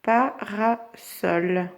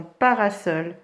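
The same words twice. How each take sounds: First: Parasol very slowly as pa... ra... sol; split into syllables. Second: Said in the usual way. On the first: Shown as a demonstration. Teacher tracing syllables, Parasol in three slow pieces. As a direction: clear gaps inside "Parasol". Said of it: "on trace ces syllabes". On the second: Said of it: "dans parasol".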